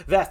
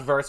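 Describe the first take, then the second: First: "Ves" with no r sound; correct pronunciation of Ves. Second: "verse" with an r sound; mistaken pronunciation, verse. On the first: Streamer corrects a follower's name, "Ves" without the r. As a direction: say "Ves" to rhyme with "yes". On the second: Streamer shows the misread name, "verse" with an r. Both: Shown as a demonstration. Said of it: "Ves, not verse".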